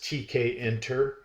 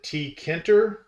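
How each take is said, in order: First: The letters T and K are said separately. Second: The start is blended into one syllable, "tee-kin". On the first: The speaker calls it right. "the proper pronunciation from I T people" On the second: The speaker calls it wrong. "some people um, pronounce it T Kinter"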